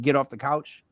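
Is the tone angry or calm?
calm. It is said calmly, in an even voice. A plain request. "you don't just say"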